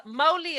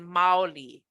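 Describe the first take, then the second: First: "Mauli" with a rounded "mow-lee" first vowel, like "oh" into "oo"; careful Hawaiian pronunciation. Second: "Maoli" with an open "ah-o" in the first part; contrasting Hawaiian pronunciation. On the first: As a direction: say "Mauli" with the closer o-u glide. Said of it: "is different than Maoli". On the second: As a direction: say "Maoli" with a wide a gliding to o. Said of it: "Mauli is different than". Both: Shown as a demonstration.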